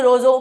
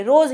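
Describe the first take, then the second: First: रोजो with an added final o; wrong inflected form. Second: Said in the usual way. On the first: Shown as a demonstration. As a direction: end रोजो on a long o vowel. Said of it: "ऐसे नहीं बोलेंगे". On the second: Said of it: "रोज ही बोलेंगे".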